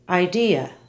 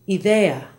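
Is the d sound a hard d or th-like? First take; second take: hard d; th-like. First: The d is a firm stop, tongue on ridge. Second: The d is soft, close to a th sound. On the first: "Listen to the same English and Spanish words" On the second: "how the D sounds in Spanish"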